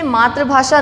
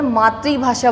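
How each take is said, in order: First: The second syllable sounds like 're'. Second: The second syllable sounds like 'ri'. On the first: The speaker calls it wrong. "ना बोलकर" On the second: The speaker calls it right. "बोलना शुरू करेंगे आज से, क्योंकि ये रा नहीं री है"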